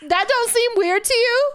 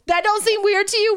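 First: High, loud witchy screech; shrill witch voice. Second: Said in the usual way. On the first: Real, not acted. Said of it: "You're making me sound like the Wicked Witch now".

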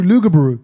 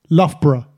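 First: Lugabaroo said "loo-ga-ba-ROO", loud; loud, mangled Lugabaroo; American mispronunciation. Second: Loughborough said "LUFF-bruh"; correct pronunciation. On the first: Retold or imitated. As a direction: say Lugabaroo with long "oo" at both ends. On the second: Shown as a demonstration. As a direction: say Loughborough short, starting with "luff". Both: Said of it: "I once had an American say".

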